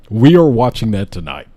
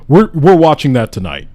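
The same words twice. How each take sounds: First: Firm, with "are" stressed. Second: Excited. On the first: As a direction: lean hard on "are". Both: Real, not acted.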